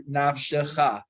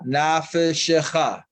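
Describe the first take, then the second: First: The f runs straight into sh, no vowel. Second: A vowel is heard between f and sh. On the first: "in the siddur would be nafshecha, and the fe would remain a silent" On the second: "we're reading it nafeshecha"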